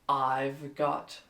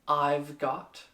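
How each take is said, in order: No difference in how they are said.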